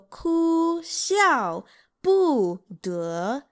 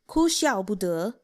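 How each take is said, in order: First: The phrase is said slowly, syllable by syllable. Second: The phrase is said at a normal speed. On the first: "then I'll slow it down for you all" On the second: "I'll say it once normally"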